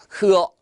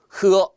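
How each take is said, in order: Both takes have the same delivery.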